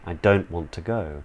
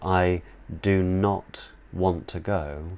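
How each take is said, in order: First: Do not is contracted into one syllable. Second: Do not is said as two full words. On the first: "reduce that to I don't want to go" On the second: "if I was to say, I do not want to go"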